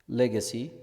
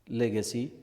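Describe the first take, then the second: No difference in how they are said.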